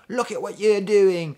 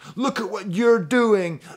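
First: It is said in a put-on British accent. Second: It is said in the speaker's ordinary accent. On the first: The speaker calls it right. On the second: The speaker calls it wrong.

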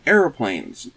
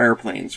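First: It is said with an American pronunciation. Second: It is said with a British pronunciation.

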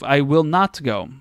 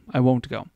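First: The words 'will not' are said in full as two words. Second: The words 'will not' are run together as 'won't'.

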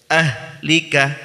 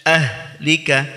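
The two takes are said the same way.

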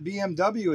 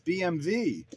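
First: The final letter is said as double-u. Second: The final letter is said as vay. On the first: "BMW is not BMW in Germany" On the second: "It's BMW"

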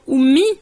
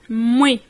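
First: The word begins with a clear vowel sound. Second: The opening vowel is dropped; it starts on m. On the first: This is the Standard Arabic form. "On ne va pas dire oumi, comme par exemple en langue arabe" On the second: This is the common Darija form. "le ou de oum, souvent, c'est quasiment muet en darija"

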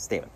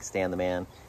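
First: The phrase is said very fast, blended together. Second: The phrase is said at a normal, careful pace.

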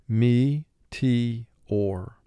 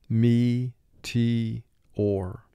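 No difference in how they are said.

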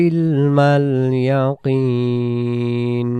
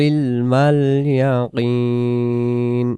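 No difference in how they are said.

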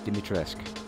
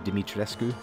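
First: The final U sound is left silent. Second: The final U sound is pronounced. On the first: The speaker calls it right. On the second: The speaker calls it wrong.

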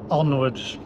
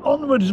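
First: It is said flat and dejected. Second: It is said upbeat and lively. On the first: "I don't think I've ever said onwards with... like that before" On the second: "It's normally onwards, my friends!"

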